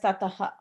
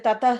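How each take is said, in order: First: The word ends with a full extra 'ha' syllable. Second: The word ends with only a short breath. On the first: The word stands alone. "when you say the word just by itself, it will be pronounced as tataha" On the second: The word runs on into the next word. "when you're saying together, you skip that uh, syllable, ha syllable"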